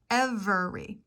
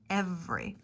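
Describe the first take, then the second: First: The word is said with three full syllables. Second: The middle vowel is dropped, leaving two syllables. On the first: "you might think it has three syllables and pronounce it every" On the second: "vowel omission, really working on that accent reduction"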